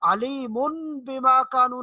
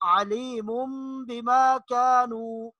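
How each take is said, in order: First: A plain n sound comes before the b. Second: A nasal m sound comes before the b. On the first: The speaker calls it wrong. "अलीमुन बिमा कानू नहीं पढ़ेंगे" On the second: The speaker calls it right. "बल्कि अलीमुम बिमा कानू"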